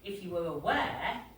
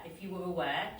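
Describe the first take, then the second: First: The vowels are said with a bouncing pitch. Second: The vowels are said evenly, without bounce. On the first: "there's like a bounce in there" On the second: "she wouldn't say"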